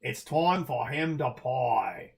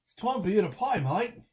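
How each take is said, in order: First: Slow, drawn-out mock Australian accent; Posthumous Man Australian. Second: Higher, quicker put-on Australian accent; real Australian accent. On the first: Streamer showing a requested impression, slow mock Australian. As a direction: stretch each word in a put-on Australian accent. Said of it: "Posthumous Man impression would be like". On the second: Streamer showing how a real Australian says it, higher Australian accent. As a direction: lift it into a fuller Australian twang. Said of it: "if you're really Australian, it'd be like". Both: Shown as a demonstration.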